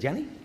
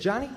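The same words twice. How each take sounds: First: It is said in an Elmer Fudd voice. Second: It is said in a plain voice.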